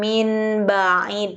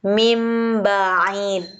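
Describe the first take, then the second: First: The sound before the b is n. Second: The sound before the b is m. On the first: The speaker calls it wrong. "Bukan min ba'id" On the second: The speaker calls it right. "tetapi mim ba'id. Nunnya diganti jadi huruf mim"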